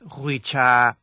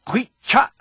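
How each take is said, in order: First: The word ends smoothly, without a cutoff. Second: The word ends with an abrupt cutoff of sound. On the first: The speaker calls it wrong. "not hui cha" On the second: The speaker calls it right. "The correct pronunciation of this word is hui cha"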